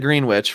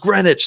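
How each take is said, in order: First: The name is pronounced letter by letter. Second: The name is not pronounced as spelled. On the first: The speaker calls it wrong. "Because that's just how it looks" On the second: The speaker calls it right. "It's it's pronounced Greenwich"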